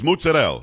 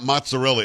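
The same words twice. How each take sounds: First: It is said with a southern Italian accent. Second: It is said without a southern Italian accent. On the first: The speaker calls it right. "You have to say it like this with your head" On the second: The speaker calls it wrong. "it's not mozzarella"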